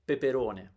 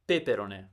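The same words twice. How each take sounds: First: The stress is on the third syllable. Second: The stress is on the second syllable. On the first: The speaker calls it right. "The third one is correct" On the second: The speaker calls it wrong.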